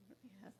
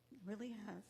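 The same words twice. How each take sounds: First: Quiet echo. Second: Said in the usual way. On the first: Real, not acted. Heartfelt repeat of thanks.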